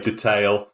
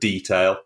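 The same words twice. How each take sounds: First: The word is pronounced the American way. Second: The word is pronounced the British way. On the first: This is how some Americans say it. The speaker calls it wrong. "Americans are funny and they sometimes say detail" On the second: This is how everyone in the UK says it. The speaker calls it right. "nobody in the UK would ever say anything but detail"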